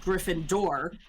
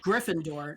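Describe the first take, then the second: First: The stress is not on the first syllable. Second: The stress is on the first syllable. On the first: The speaker calls it wrong. "not Gryffindor, which is how she sings it here" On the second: The speaker calls it right. "you want it to sound like you're saying Gryffindor"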